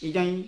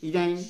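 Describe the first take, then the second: The two takes are said the same way.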